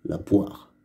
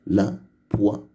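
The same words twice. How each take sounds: First: Said in the usual way. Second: "la poire" with pauses: la, poi, re; deux syllabes. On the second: Shown as a demonstration. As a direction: split "poire" into poi and a sounded final re. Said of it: "avec deux syllabes". (« poire » découpé en deux syllabes : poi, re)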